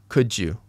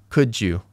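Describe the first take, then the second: Both takes have the same delivery.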